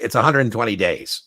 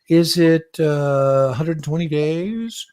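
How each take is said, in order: First: It sounds sure, falling like a statement. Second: It sounds unsure, rising like a question.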